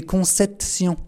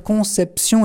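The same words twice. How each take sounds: First: "conception" said as "consetsion", the P sound replaced by T; child's mispronunciation. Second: Said in the usual way. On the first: Retold or imitated. Speaker showing Bernadette's slip on the last syllable, "conception" mispronounced as "consetsion". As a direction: botch the end of "conception" into "consetsion". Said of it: "Elle se trompait sur la dernière syllabe". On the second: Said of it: "Au lieu de dire conception".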